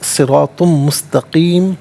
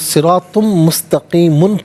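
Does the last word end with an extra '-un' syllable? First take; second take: no; yes. First: The last word ends on a bare m sound. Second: The last word ends with an added -un syllable. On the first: The reciter stops at this word. "वक़्फ़ की सूरत में सिरातुम मुस्तक़ीम पढ़ा जाएगा" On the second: The reciter continues without stopping. "सिरातुम मुस्तक़ीमुन पढ़ेंगे"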